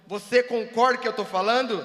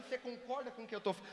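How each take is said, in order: First: Sudden loud demand for agreement; pressuring loud. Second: Said in the usual way. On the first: Shown as a demonstration. Speaker pressing a volunteer to agree, loud and insistent. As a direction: lean on him with a much louder voice. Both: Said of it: "Mas você não tá pressionado".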